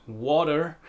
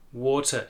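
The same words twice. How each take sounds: First: American "water" with the R heard at the end; American accent. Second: British "Water" with an open final vowel; British accent. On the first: Teacher repeating the American version, American accent. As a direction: curl an American R onto "water". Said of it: "clearly hear the, the letter R at the end". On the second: Teacher repeating the British version, British accent. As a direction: drop the R from "Water", British style. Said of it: "more open vowel sound at the end". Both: Shown as a demonstration.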